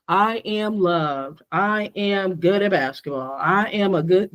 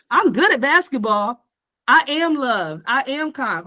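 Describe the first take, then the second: First: Slow, low, mumbled affirmations with no belief; lower, slow and doubtful self-talk; unconvinced affirmations. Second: Upbeat, convinced affirmations; confident self-belief, with some energy; enthusiastic affirmations. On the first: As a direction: say it like you don't mean it. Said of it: "when you're doing your affirmations". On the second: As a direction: say it like you believe it. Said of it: "You have to say it with enthusiasm". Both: Shown as a demonstration.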